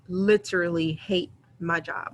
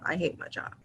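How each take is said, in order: First: Said in the usual way. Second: Breathy whisper for emphasis. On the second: Shown as a demonstration. Confessing to viewers how much she hates her job, whispered. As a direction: drop to a secret-sharing whisper. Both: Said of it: "When I say I hate my job".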